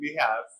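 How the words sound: It is said with an American accent.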